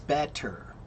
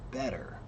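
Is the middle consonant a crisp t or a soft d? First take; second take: crisp t; soft d. First: The middle t is sharp and fully released. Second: The middle t is a quick soft d. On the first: "When you say it slowly, ... it's better. ... pronounced sharply" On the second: "when you say it more quickly, it becomes better, like a soft D"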